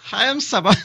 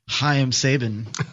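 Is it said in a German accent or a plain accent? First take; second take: German; plain. First: It is said in a German accent. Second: It is said in his normal accent.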